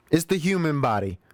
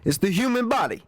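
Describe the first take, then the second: First: Moderately raised pitch, falling away; lightly playful excuse; milder mock excuse. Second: Jokey, high, put-on voice; playful high-voiced protest; high-pitched mock excuse. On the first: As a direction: repeat the joke, settling toward your own voice. Repeats the excuse less high. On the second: Jokey excuse for having gas.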